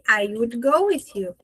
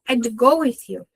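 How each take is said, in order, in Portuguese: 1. A palavra would é falada por extenso. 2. A palavra would é contraída para 'd.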